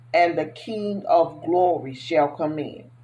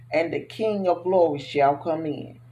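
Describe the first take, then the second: The two takes are said the same way.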